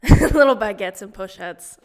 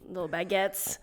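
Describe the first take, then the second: First: Loud, laughing repeat. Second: Said in the usual way. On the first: Real, not acted. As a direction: say it again through a laugh. Laughing repeat, much louder.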